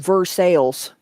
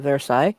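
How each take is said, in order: First: It is said with a local American pronunciation. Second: It is said with a French pronunciation. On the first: It names the Ohio town. "in Ohio, it's called Versailles" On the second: It names the city in France. "a well-known city in France"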